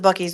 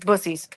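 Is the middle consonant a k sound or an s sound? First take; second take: k; s. First: The middle consonant is a k sound. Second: The middle consonant is an s sound. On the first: This is what most people call it. The speaker calls it wrong. "Everyone calls it Bucky's" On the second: This is the name as locals say it. The speaker calls it right. "but it's Bussies. That's how you pronounce it"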